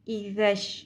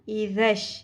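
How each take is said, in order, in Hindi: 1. बीच का व्यंजन नरम 'th' ध्वनि है। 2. बीच का व्यंजन नरम 'th' ध्वनि है।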